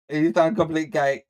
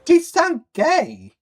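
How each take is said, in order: First: Said in the usual way. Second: High, slow, put-on mocking voice. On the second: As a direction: drag it out high to tease him. Mocking the man in the video.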